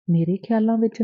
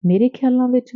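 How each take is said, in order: First: Lightly surprised, half to herself; mild surprise. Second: Higher, louder, hitting ਖਿਆਲਾਂ in amazement; astonished repeat. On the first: (ਹਲਕੀ ਹੈਰਾਨੀ ਨਾਲ ਸਵਾਲ) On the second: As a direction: repeat it, truly taken aback. (ਉੱਚੀ ਹੈਰਾਨੀ ਨਾਲ ਦੁਹਰਾਓ, ਖਿਆਲਾਂ 'ਤੇ ਜ਼ੋਰ) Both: A narrator's reading. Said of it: "ਹੈਰਾਨੀ ਵਾਲਾ ਮੂੰਹ ਬਣਾ ਕੇ ਦੁਹਰਾਇਆ".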